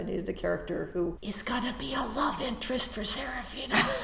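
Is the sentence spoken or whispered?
whispered. The sentence is whispered very softly.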